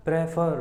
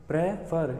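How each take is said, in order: First: Said in the usual way. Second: "prefer" split as PRE, pause, FER; syllable break. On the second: Shown as a demonstration. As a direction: halt briefly in the middle of "prefer". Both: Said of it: "एक विराम आ रहा है बीच में".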